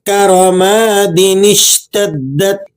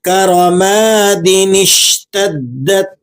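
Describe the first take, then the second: The two takes are said the same way.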